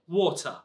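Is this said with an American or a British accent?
British. It is said with a British accent. "because you are in London here, we say water"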